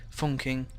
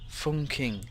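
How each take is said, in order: First: The word is said quickly. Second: The word is said at a normal speed.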